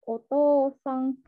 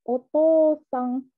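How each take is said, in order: Both takes have the same delivery.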